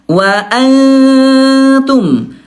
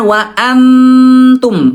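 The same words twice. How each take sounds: First: The n is hidden in a held nasal hum. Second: The n is pronounced clearly as a full n. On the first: The speaker calls it right. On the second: The speaker calls it wrong.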